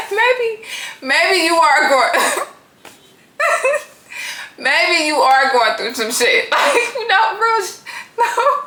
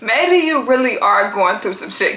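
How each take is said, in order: First: High voice breaking into real laughter; cracking up. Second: Said in the usual way. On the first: Real, not acted. Realising the woman may be struggling, cracking up. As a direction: try to speak through the giggles, stalling. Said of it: "I'm not trying to laugh at her". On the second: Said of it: "I'm really not".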